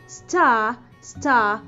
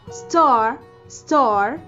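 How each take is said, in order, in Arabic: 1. صوت الـ R في الآخر بيتحذف. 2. صوت الـ R في الآخر بيتنطق.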